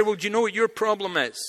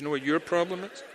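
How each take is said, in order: First: Confrontational challenge. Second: Said in the usual way. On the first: Retold or imitated. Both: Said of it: "which isn't really a good way".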